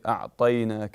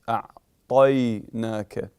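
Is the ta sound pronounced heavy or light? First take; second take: light; heavy. First: The ta sound is light and thin. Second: The ta sound is heavy and full. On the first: The speaker calls it wrong. "We don't say" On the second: The speaker calls it right. "notice حرف الطاء is مفخم"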